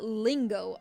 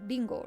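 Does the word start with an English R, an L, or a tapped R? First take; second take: L; tapped R. First: The word starts with a clear L. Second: The word starts with a quick tapped R. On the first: The speaker calls it wrong. "it's not lingo either because with the L" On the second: The speaker calls it right. "it's a Spanish R pronunciation"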